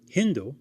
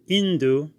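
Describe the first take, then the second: First: The word begins with an H sound. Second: The word begins directly with a vowel sound.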